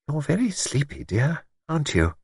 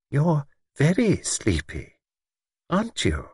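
First: Soft, kindly asking; gently, like a caring friend; gentle everyday tone. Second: Slow, knowing, pointed question; meaningful tone. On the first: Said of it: "said in a gentle, everyday tone". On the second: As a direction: let the hidden meaning show. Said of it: "no mistaking the definite significance of the tone". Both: A narrator's reading.

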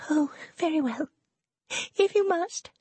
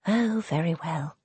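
First: Put-on much higher, sulky young lady; grudging and put-upon, much higher; petulant. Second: Said in the usual way. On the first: Serena's petulant consent.

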